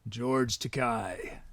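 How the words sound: It is said in a deliberately deep voice.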